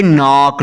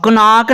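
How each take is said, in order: First: "नॉक" starting straight on n; silent K. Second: "कनॉक" with a k before the n; wrongly sounded K. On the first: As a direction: say "नॉक" with no k before the n. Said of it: "कनॉक नहीं पढ़ेंगे". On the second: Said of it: "नहीं पढ़ेंगे". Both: Shown as a demonstration.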